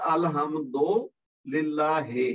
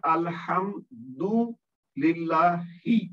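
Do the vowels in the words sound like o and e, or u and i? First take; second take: o and e; u and i. First: The vowels sound like o and e. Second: The vowels sound like u and i. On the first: The speaker calls it wrong. "गलत क्या पढ़ा जाता है? ... तो ये गलत है" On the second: The speaker calls it right. "और सही क्या है?"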